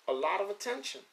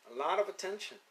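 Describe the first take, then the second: No difference in how they are said.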